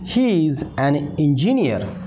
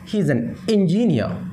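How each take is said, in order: First: It is said as two separate words, 'he is'. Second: It is shortened to one syllable, 'he's'.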